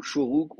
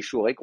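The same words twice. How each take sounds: First: "Shuruk", the same ou sound twice; only ou vowels. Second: "Shurek", ou first and then e; traditional vowel name. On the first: Teacher showing the vowel cannot be mistaken, "Shuruk" with two ou sounds. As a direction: say "Shuruk" with ou in both syllables. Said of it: "on n'a que des ou". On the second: Teacher showing why one may hesitate, "Shurek" with mixed ou and e vowels. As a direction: say "Shurek" with an e in the last syllable. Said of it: "on peut hésiter". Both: Shown as a demonstration.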